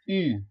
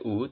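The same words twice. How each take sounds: First: The vowel is a front rounded 'ee' sound. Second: The vowel is a back rounded 'oo' sound. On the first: The speaker calls it right. "tapi dibaca U" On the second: The speaker calls it wrong. "tidak dibaca U"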